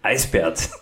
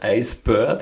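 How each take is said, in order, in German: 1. Die letzte Silbe klingt wie der Name 'Bert'. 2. Die letzte Silbe klingt wie das englische 'bird'. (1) "sondern Eisbärt" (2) "Er sagt ihm nicht Eisbird"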